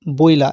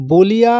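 First: "বইলা" as boi-la, i before the l; i moved forward. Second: "বলিয়া" as bo-li-ya, i after the l; original full form. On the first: Teacher recalls the shifted form, "বইলা" as boi-la. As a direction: say "বইলা" in two parts, boi-la. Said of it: "যখন আমরা বইলা কথাটা বলবো". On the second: Teacher recalls the example for pupils, "বলিয়া" as bo-li-ya. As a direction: say "বলিয়া" in three parts, rising at the end. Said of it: "আমরা এর আগে উদাহরণটা কি দেখলাম". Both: Shown as a demonstration.

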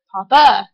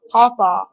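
First: "Papa" said as paw-PUH, louder; puh-ending variant. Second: "Papa" said as PAW-paw; paw-paw variant. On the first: Listing grandparent names in an accent challenge, "Papa" ending in uh. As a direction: end "Papa" on a loud uh instead of aw. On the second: Listing grandparent names in an accent challenge, "Papa" as PAW-paw. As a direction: say "Papa" with two open aw vowels. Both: Shown as a demonstration. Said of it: "what do you call your grandparents".

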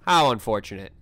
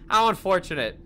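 First: Low, flat deadpan imitation; deadpan robot voice. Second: A hint of flat indifference; lightly voiced bored operator; deadpan operator. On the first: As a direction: mimic a cold AI voice. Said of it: "has the audacity to say". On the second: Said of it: "the guy on the other end goes".

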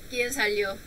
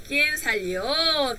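First: Said in the usual way. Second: Slow model. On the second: Shown as a demonstration.

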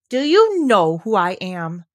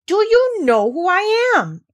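First: Haughty, slow question, stress on you; a boy prince challenging a gardener; slow haughty demand. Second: Much higher, louder imperious demand, slow; more imperious. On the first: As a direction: look down your nose and ask slowly. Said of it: "demanded the Rajah". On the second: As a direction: throw your whole royal weight behind it. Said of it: "demanded Colin still more imperiously". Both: Acted.

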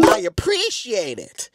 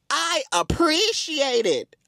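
First: Slow, deliberate acted reply; drawn-out thanks. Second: Higher, slow, drawn-out thanks; exaggerated, lilting mock-polite reply; hammed-up gratitude. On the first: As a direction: stretch out the thanks slowly. Acting out own flattered reply. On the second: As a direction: play up the thanks, stretched out high. Repeats the reply, hamming it up.

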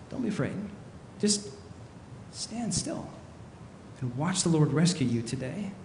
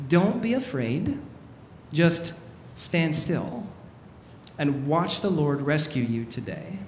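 First: Calm a panicking crowd very quietly; hushed reassurance. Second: Said in the usual way. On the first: Acted. Repeats Moses's calming words softly. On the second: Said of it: "Moses says to them this quote here".

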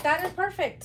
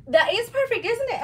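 First: Light high retold delight. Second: High, loud delight; excited. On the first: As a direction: replay the thrill, lighter. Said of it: "I was like". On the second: Real, not acted. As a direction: gush about it. Delighted with matching webbing.

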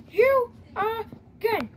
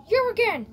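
First: Very slow, weary "You again?"; exasperated drawl. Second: Said in the usual way. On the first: Acted. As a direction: drag out "You again?" in disbelief. Same line repeated, slower later.

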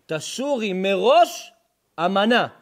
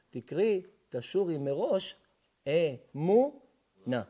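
First: Drawn-out chant of תשורי מראש אמנה, slow and loud; chanted, intone תשורי מראש אמנה like a cantor; chanted verse reading. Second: אמונה stretched out very slowly instead of אמנה; reread as אמונה. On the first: Rabbi chanting the verse to the congregation, slow and loud. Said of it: "אל תקרי תשורי מראש אמנה". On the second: Rabbi rereads the verse, drawing out אמונה. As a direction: land slowly and heavily on אמונה. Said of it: "אל תקרי". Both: Shown as a demonstration.

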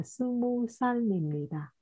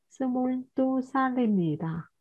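First: "스무" with the final ㄹ dropped. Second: "스물두" with the ㄹ sounded before 두; higher model reading, keep the L in "스물두"; ㄹ kept. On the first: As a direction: say "스무 살입니다", no L closing 스무. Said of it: "bạn sẽ mất đi riêng". (đọc "스무" không có âm ㄹ cuối) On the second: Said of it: "thì lại không mất". (đọc "스물두" giữ rõ âm ㄹ) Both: Shown as a demonstration.

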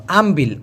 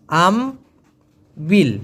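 First: Said in the usual way. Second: আমবিল drawn out very slowly; slow careful pronunciation. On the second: Shown as a demonstration. Teacher showing learners how to say আমবিল, very slowly. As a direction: stretch out আমবিল syllable by syllable. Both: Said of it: "উচ্চারণটা হবে আমবিল".

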